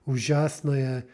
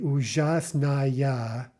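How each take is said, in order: First: The unstressed ending vowel is reduced and unclear. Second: The unstressed ending vowel is fully and clearly pronounced. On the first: This is how the word sounds in normal speech. "Because of the reduction, it, they sound almost indistinguishable" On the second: The speaker is making the spelling clear. "pronouncing a word with no reduction on purpose"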